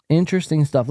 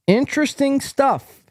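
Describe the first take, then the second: First: Said in the usual way. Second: High, punchy exclamation; hammed-up comment readout. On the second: Host reads a viewer comment aloud, hammed-up. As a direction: pitch it high like a big announcement.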